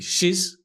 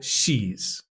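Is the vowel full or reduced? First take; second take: reduced; full. First: It has a short, reduced, unstressed vowel. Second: It has a long, full, stressed vowel.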